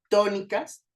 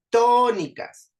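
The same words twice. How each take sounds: First: Said in the usual way. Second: Tónicas with TÓ loud, high and drawn out; stress on TÓ. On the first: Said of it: "Por ejemplo". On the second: Shown as a demonstration. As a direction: punch and stretch the TÓ in Tónicas. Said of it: "vean cómo to suena más fuerte". (Tónicas con la TÓ fuerte, aguda y alargada)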